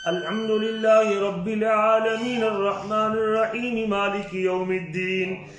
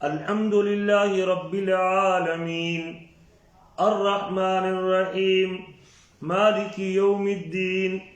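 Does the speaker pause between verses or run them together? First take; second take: run together; pause. First: The verses run together in one breath. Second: Each verse is separated by a pause. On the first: This goes against the Prophet's practice. The speaker calls it wrong. "आप सांस भी जाके आखिर पे लें, ये सुन्नत तरीका नहीं है" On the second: This is the Prophet's practice. The speaker calls it right. "आप एक एक आयत करके पढ़ते थे"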